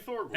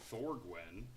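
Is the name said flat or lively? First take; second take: lively; flat. First: The name is said with lively, excited inflection. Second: The name is said flatly, without inflection. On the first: The speaker calls it right. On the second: The speaker calls it wrong.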